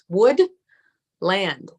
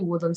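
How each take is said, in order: First: The word is said slowly in two parts. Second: The word is said quickly as one unit. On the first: "but really it's wood land" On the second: "I say it fast"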